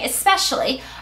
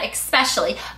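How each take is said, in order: First: The word begins with an 'es' sound. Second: The word begins with an 'ex' sound. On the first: The speaker calls it right. "it's an S" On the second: The speaker calls it wrong. "where's the X in that word?"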